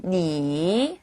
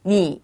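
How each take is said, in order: First: 니 dragged out slowly, a long dip; slow full dipping tone; long full third tone. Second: Just drop 니 and stop; half third tone. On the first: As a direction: stretch the 니 out too long. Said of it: "너무 길기 때문에 앞부분 반만 잘라서". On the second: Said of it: "뚝 떨어지는 발음을 해요". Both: Shown as a demonstration.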